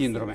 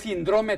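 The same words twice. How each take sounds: First: The stress is on the first syllable. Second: The stress is not on the first syllable. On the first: The speaker calls it right. "si la palabra es esdrújula" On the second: The speaker calls it wrong. "Le falta el acento"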